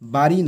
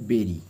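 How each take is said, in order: First: The first vowel sounds like 'ah'. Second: The first vowel sounds like 'eh'. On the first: The speaker calls it wrong. "বাড়ি নয় কিন্তু" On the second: The speaker calls it right. "তো এর উচ্চারণটা হবে বেরি"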